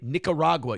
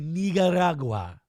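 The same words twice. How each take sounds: First: It is said with a plain American accent. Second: It is said with a put-on Spanish accent. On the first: The speaker says it as an ordinary American. The speaker calls it right. "pronounce shit the way it's pronounced in your language" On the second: The speaker pretends to be from elsewhere. The speaker calls it wrong.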